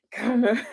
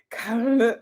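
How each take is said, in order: First: Laughing through the words; giggling, can't keep a straight face. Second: Laughing harder. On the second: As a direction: break into laughter on it. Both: Real, not acted. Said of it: "you guys make me laugh".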